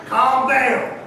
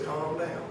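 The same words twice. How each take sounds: First: Said in the usual way. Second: Very soft, low reassurance; still small voice. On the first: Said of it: "In other words". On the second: Acted. Inner voice to anxious believers, still small voice. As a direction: hush it right down, as a gentle inner voice. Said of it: "the still small voice that says".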